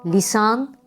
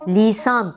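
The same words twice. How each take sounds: First: The i vowel is kept short. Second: The i vowel is drawn out long. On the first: The speaker calls it right. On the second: The speaker calls it wrong.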